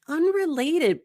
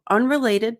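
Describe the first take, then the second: First: The word is drawn out slowly. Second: The word is said quickly and flatly. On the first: The speaker calls it right. "just by saying this slowly" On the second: The speaker calls it wrong. "that sounds robotic"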